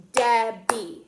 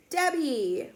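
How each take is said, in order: First: "Debbie" in two loud, separate beats; "Debbie" broken firmly into its two syllables; clapped syllables. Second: Said in the usual way. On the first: Shown as a demonstration. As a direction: clap out "Debbie", one beat per syllable. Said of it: "Two syllables too". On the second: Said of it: "had two syllables".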